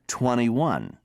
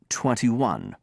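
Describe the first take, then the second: First: The middle T sound is dropped. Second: The middle T sound is pronounced. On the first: "Americans drop the T and say twenty-one" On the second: "Brits say twenty-one"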